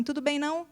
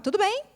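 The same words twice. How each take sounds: First: Tudo bem, não with the não tacked on, a bit quieter; not-okay version. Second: Tudo bem asked with a normal rising tune; ordinary greeting tune. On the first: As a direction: add the não at the end when he is unwell. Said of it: "ele vai falar assim". (com o não no final, mais baixo) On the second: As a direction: say it the way anyone would. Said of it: "no mesmo entonação que a gente". (entonação normal de pergunta) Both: Retold or imitated.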